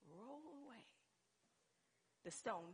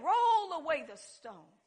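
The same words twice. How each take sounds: First: Hushed command. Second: Loud, slow command; commanding call. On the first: Preacher quoting Jesus at the tomb, hushed command. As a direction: give the order almost under your breath. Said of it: "First thing that Jesus said is". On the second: Preacher quoting Jesus at the tomb again, loud command. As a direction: draw the order out forcefully. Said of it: "he said". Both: Acted.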